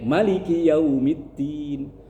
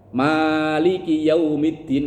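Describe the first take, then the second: First: The first vowel is said short. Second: The first vowel is drawn out long. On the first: This is another accepted reading. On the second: This is the common reading heard among the public.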